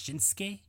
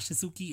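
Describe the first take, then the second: First: The u after the s is silent. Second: The u after the s is clearly pronounced. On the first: The speaker calls it right. "The U is silent" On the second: The speaker calls it wrong. "it's not Shinsuke"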